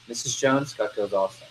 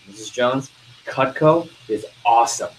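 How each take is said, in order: First: Unenthusiastic pitch. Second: Firm, punchy praise; enthusiastic pitch. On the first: Salesperson showing poor voice inflection to customer, soft and unenthusiastic. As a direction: say it half-hearted, trailing down. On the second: Salesperson showing good voice inflection to customer, enthusiastic. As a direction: sell it with emphatic voice inflection. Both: Shown as a demonstration. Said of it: "Voice inflection".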